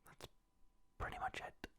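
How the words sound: It is said in a whisper.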